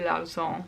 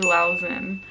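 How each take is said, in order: First: The name is said with a French accent. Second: The name is said with an American accent. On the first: The speaker calls it right. "the way it's supposed to be pronounced" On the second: The speaker calls it wrong. "I feel so stupid pronouncing their artist names with an American accent"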